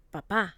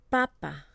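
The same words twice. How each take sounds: First: "Papa" with the second syllable punched, pitch rising onto it; stress on last syllable. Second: "Papa" with the first syllable punched, the second falling away; stress on first syllable. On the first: Teacher models two words for learners to repeat, last-syllable stress. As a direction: hit the final PA of "Papa". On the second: Teacher models two words for learners to repeat, first-syllable stress. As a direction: hit the PA at the start of "Papa". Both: Shown as a demonstration. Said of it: "If you stress the wrong syllable".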